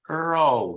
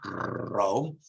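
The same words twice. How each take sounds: First: The R is approximant; the tongue never touches. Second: The R is not approximant; the tongue touches. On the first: The speaker calls it right. "You say Rome" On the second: The speaker calls it wrong. "not Rome"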